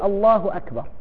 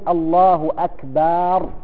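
First: The vowel after the b is kept short. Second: The vowel after the b is drawn out long. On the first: The speaker calls it right. "إذن يقول الله أكبر" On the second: The speaker calls it wrong. "لا يزد في مد الفتحة للباء"

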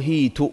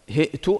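First: A y sound replaces the glottal stop. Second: A glottal stop is heard in the middle. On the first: "إبدال الهمزة ياء" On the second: "وهناك قراءة بالهمز"

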